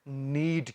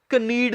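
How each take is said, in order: First: The word begins with an n sound. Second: The word begins with a k sound. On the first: The speaker calls it right. "ਨੀਡ ਕਹਿਣਾ ਹੈ" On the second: The speaker calls it wrong. "ਇਹਨੂੰ ਕਨੀਡ ਨਹੀਂ ਕਹਿਣਾ"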